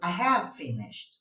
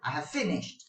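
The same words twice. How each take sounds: First: The stress is on "have". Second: The stress is on "finished".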